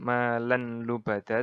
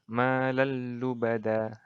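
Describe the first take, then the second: First: The n sound is kept before the l. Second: The n sound merges into a doubled l. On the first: The speaker calls it wrong. "Jadi bukan malanlubada" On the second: The speaker calls it right. "tapi yang benar malallubada"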